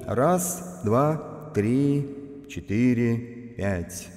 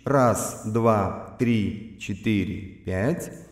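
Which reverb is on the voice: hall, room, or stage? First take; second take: hall; stage. First: The voice has a large hall reverb. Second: The voice has a medium stage reverb. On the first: "И в финале всего FX-обзора слушаем Hall" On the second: "Теперь услышим, что такое Stage"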